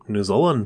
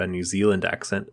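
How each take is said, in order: First: New Zealand accent, "Zealand" as "Zolland". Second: Said in the usual way. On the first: Shown as a demonstration. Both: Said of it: "let's hear your Australian accent".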